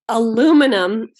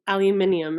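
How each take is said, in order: First: The word is not said the British way. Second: The word is said the British way.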